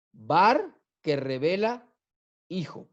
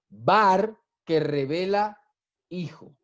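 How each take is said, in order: Both takes have the same delivery.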